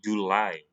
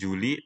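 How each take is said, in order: First: The word ends with an 'eye' sound. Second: The word ends with an 'ee' sound. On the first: The speaker calls it right. "tapi July" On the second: The speaker calls it wrong. "bukan Juli"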